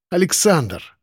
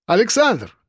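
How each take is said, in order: First: АЛЕКСАНДР pressed with a touch of anguish; «Александр» said with insistent, mild strain. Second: High-pitched hail by name; hailing him, pitched well up; calling out. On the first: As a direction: lean on «Александр», pleading hard. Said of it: "с нажимом и даже надрывом повторил он". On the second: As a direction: call to someone in a queue. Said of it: "окликнули меня". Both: A narrator's reading.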